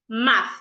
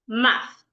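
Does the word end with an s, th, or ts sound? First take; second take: th; th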